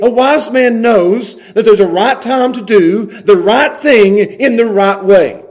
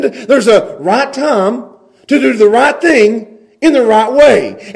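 First: Slow, each "right" and "way" leaned on; slow deliberate emphasis. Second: Slow, each "right" pressed, "way" falling; slow deliberate emphasis. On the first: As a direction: spell out the rule word by word. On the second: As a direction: lean on every "right" and land "way". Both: Shown as a demonstration. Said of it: "a discerning man knows how".

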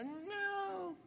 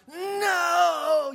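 First: A drawn-out, high, hushed movie-style no; slow-motion movie no. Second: A sudden, much higher, louder cry of no; grandma shouting to stop the throw; yelled no. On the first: Grandma's cry replayed as a slow-motion TV moment, drawn-out high no. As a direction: play it like a slow-motion film scene. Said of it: "You know, the slow motion". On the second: Grandma yelling at a child about to hit the vase, loud high cry. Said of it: "the grandparent yells out". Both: Retold or imitated.

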